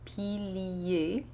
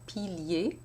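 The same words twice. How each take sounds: First: The word is said in three syllables. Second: The word is said in two syllables. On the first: "I could also say pilier in three syllables" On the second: "pilier in two syllables"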